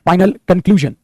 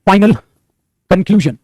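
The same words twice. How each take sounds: First: Said in the usual way. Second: "final" and "conclusion" said as two separate, set-apart words with a pause between; spaced-out phrase. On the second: Shown as a demonstration. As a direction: lay out "final ... conclusion" word by word, like presenting the example to the class. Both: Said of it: "अगर मैं बोलता हूं आपके सामने".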